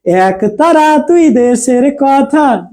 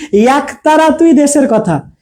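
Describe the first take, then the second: First: এক said slowly with a wide open æ, like "অ্যাক"; teacher confirms the right sound to students; open e demo. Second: এক said with a closed e, like "এক" as written; slow, a tight "এক", lips spread; teacher offers the wrong reading for contrast; closed e demo. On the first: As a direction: draw out এক as "অ্যাক", mouth open. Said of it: "তাই না?". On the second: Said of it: "নাকি". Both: Shown as a demonstration.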